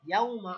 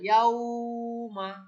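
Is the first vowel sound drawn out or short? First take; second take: short; drawn out. First: The first vowel is said short and quick. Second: The first vowel is stretched out long. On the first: The speaker calls it right. "লিন অর্থ নরম করে তাড়াতাড়ি পড়া" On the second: The speaker calls it wrong. "আমরা বলতে পারবো না ইয়াউমা, এরকম টান দিব না"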